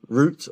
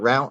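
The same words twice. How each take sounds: First: It is said the British way. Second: It is said the American way.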